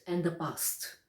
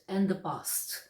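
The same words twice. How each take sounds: The two takes are said the same way.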